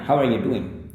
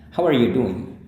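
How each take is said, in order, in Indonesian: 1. Bunyi D dalam 'doing' dihilangkan. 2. Bunyi D dalam 'doing' dilafalkan penuh.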